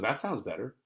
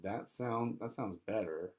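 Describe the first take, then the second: First: Livelier, lilting approval with a rising end; genuinely interested. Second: Softer, unconvinced agreement; reluctant no. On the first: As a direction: say it as if ready to buy. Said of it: "I know she's not gonna. But if she goes". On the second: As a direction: say it quietly, as if really declining. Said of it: "because of the way she said". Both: Acted.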